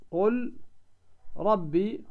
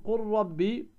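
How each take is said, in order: First: قل and ربي split by a pause, with a clear separate ل; wrong pronunciation. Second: قل ربي with the ل merged into a doubled rr; correct assimilation. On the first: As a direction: say قل, pause, then ربي, keeping the ل distinct. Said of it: "هنا لم تدغم". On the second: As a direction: say قل ربي as qur-rabbi. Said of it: "وهذا هو الصحيح". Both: Shown as a demonstration.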